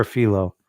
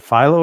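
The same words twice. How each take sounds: First: First syllable of Philo rhymes with "see"; Philo as FEE-loh. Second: First syllable of Philo rhymes with "eye"; Philo as FY-loh. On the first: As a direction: pronounce Philo like "fee-low". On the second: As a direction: pronounce Philo like "file-oh". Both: Shown as a demonstration. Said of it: "if I'm saying it right".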